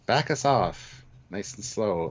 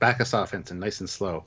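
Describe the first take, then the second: First: It is said with hesitation in the voice. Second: It is said steadily, without hesitation.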